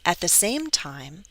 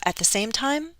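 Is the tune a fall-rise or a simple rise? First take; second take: fall-rise; rise. First: The pitch falls and then rises again. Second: The pitch rises steadily through the phrase. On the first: "I often use the fall rise" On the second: "Some people go up"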